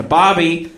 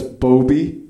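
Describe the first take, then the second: First: "Bobby" said as BAH-bee; "Bobby" pronounced the common way, BAH-bee; short O in BOBBY. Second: "Bobby" said as BOH-bee, rising; "Bobby" pronounced BOH-bee; long O in BOBBY. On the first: Real, not acted. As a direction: say "Bobby" with an open AH vowel. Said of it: "so I changed it to". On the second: Retold or imitated. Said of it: "I thought that was a dumb name".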